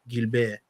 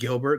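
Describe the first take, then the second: First: The name is said with a French pronunciation. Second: The name is said with an English pronunciation. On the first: It sounds like a husband. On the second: It does not sound like a husband.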